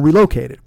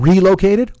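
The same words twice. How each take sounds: First: The stress is on the second syllable. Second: The stress is on the first syllable. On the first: "With a loke?" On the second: "Do you like a re or a loke?"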